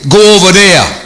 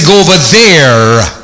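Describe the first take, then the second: First: The words are mumbled and unclear. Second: Every word is crisply enunciated.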